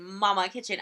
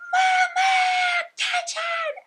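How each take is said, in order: First: Said in the usual way. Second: Loud, very high drawn-out scream, imitating a little girl; child's full-breath yell. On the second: Frustrated little girl yells to her mom, piercing shout. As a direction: scream it at the top of your lungs. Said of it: "biggest deep breath that she possibly could and goes".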